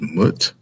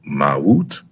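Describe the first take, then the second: First: The word is said as one short syllable. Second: The word is said as two syllables. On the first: The speaker calls it wrong. "some people pronounce it as Mut" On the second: The speaker calls it right. "but it's Mawut"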